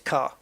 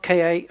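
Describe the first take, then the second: First: The name is said as one syllable, 'car'. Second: The name is spelled out as two letters. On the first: The speaker calls it right. "I know it's car" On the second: The speaker calls it wrong. "I know it's not K A"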